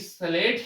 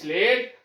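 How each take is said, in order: First: The word starts directly with the s sound. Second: A short vowel sound comes before the s. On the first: The speaker calls it right. "यह ध्वनि आपकी स्लेट ही पढ़ी जाएगी" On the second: The speaker calls it wrong. "यह स्लेट नहीं"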